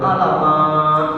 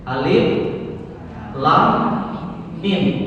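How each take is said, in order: First: The letters are blended into one word. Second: Each letter name is said separately. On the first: The speaker calls it wrong. "kata dia. Padahal mestinya Alif Lam Mim" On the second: The speaker calls it right. "Baca hurufnya"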